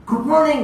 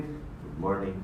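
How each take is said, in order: First: High, lifted good morning; enthusiastic greeting. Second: Very low, very soft mumble; unenthusiastic greeting. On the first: Speaker shows the better way to greet, enthusiastic. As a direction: greet with energy, pitched up. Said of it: "When you say it enthusiastically". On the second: You meet somebody and greet them, listless. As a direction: greet with no energy, dropped low and quiet. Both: Shown as a demonstration.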